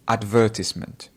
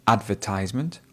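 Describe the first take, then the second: First: Advertisement with stress on VER and a short "tiss" in the middle, ad-VER-tiss-ment; British style. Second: Advertisement with the middle said as "ties", ad-ver-TIZE-ment; American style. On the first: Teacher showing students the second accepted way, clearly. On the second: Teacher showing students the first accepted way, clearly. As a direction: say advertisement with a long "eye" sound in the middle. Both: Shown as a demonstration. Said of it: "two ways that you could probably say this".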